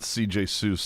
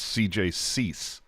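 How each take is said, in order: First: The surname rhymes with goose. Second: The surname rhymes with geese. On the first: The speaker calls it wrong. "it's not C J Seuss" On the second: The speaker calls it right. "it's C J Cease"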